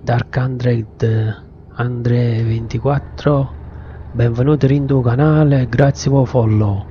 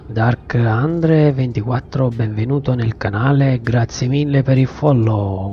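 First: Neapolitan accent. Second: Said in the usual way. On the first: Shown as a demonstration. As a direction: welcome in Neapolitan dialect. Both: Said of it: "E lo dico pure in napoletano".

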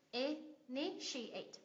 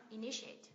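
First: "initiate" very slowly in four separate syllables, the second stressed. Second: "Initiate" as one word, stressed on "ni"; second-syllable stress. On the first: Teacher counting syllables for a student, "initiate" slowly split up. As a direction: break "initiate" into i-ni-shi-ate. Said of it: "Bốn âm tiết, nhấn âm tiết thứ hai". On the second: Teacher answering a stress question, "Initiate" stressed on second syllable. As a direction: say "Initiate" joined up with a rising end. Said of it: "nhấn âm tiết thứ hai em ạ". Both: Shown as a demonstration.

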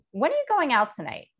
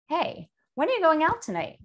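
First: Falling, pointed accusing question; judgmental tone. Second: Higher, rising friendly question; curious tone. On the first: Teacher contrasts a judgmental way of asking when. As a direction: press it like a suspicious parent. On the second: Teacher contrasts a curious way of asking when. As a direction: ask it with light, open interest. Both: Shown as a demonstration. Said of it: "You can hear the difference".

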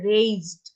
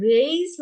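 First: "রেইজড" like "rayzd"; "রেইজড" with z sound. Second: The wrong "raised", with unvoiced s like "race"; "raised" with s sound. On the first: Teacher models the correct form for pupils, "রেইজড" with a z. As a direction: say "রেইজড" with a buzzing z before the d. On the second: Teacher recaps the mistake to avoid, "raised" with an s. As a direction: say "raised" with s in place of z. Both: Shown as a demonstration. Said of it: "raised উচ্চারণ হবে রেইজড".

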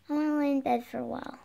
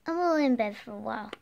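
First: Put-on quick, soft little baby voice. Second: Put-on baby voice. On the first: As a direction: say it like a tiny toddler. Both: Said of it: "Don't use a baby voice".

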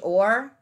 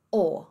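First: Or with the final R sounded; American R. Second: O as open "aw", no R; British dropped R. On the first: Teacher showing what to avoid, American R. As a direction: close or on a curled R. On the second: Teacher showing British or, R dropped. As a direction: end o on the bare vowel. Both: Shown as a demonstration. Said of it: "ao invés de or".

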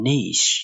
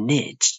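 First: Niche as "neesh"; British niche. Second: Niche as "nitch"; American niche. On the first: Teacher reads the example, British niche as "neesh". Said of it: "U K လို့ခေါ်တဲ့ British accent". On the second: Teacher rereads the example, American niche as "nitch". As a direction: end niche on ch. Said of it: "U S လို့ခေါ်တဲ့ American accent". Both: Shown as a demonstration.

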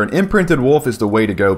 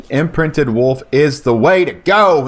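First: Said in the usual way. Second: "Imprinted wolf is the way to go" slowed down, each word leaned on; slow emphatic repeat. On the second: Real, not acted. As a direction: hammer the point home slowly.

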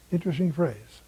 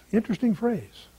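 First: Quiet musing echo. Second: Raised, curious musing on the phrase; first take, pitched up in curiosity. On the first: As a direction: let it drop, half to yourself. Musing repeat of a phrase. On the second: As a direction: lift it up with wonder. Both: Real, not acted.

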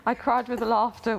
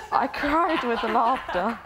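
First: Said in the usual way. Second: Slow, higher, drawn out through laughter; laughing while reading. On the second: Real, not acted. Reading a friend's letter to the group, laughing. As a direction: stretch it out over the laughing.

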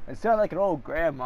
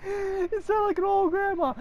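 First: Said in the usual way. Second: High-pitched mock granny voice; old grandma. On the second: Gamer teasing himself, high old-grandma voice.

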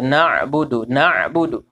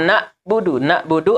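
First: Na'budu with the ain voiced and flowing on, no catch. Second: Na'budu cut by a glottal catch after na; wrong dead hamzah. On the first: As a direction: let the ain glide through in "Na'budu". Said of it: "mengalir aja ainnya itu". (na'budu dengan ain mengalir, tidak terputus) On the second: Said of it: "amjah mati". (na'budu dengan hamzah mati, terputus setelah na) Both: Shown as a demonstration.

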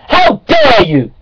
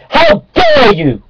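First: Said in the usual way. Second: Slow, shrill, very high how dare you; high outraged shriek. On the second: Acted. Creationist ranting at laughing evolutionists, high slow outraged shriek.

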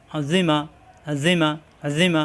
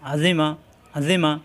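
First: Azima drawn out with a long final a; slow spelling drill; slow reading. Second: Azima clipped short and quick; now say Azima fast; brisk corrected take; quick reading. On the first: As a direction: stretch it slowly first. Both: Shown as a demonstration. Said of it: "তাড়াতাড়ি".

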